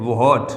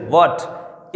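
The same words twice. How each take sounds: First: "व्हाट" said with a breathy h, wo-haat; wrong pronunciation. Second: "व्हाट" said as a single syllable wot, h silent; correct pronunciation. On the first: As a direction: sound out "व्हाट" as two beats, wo-haat, with h. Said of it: "कुछ students इसको ऐसे पढ़ते हैं". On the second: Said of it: "इसका सही pronunciation". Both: Shown as a demonstration.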